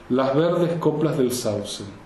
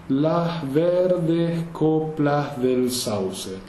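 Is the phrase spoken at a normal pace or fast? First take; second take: fast; normal. First: The phrase is spoken quickly. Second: The phrase is spoken at a normal pace.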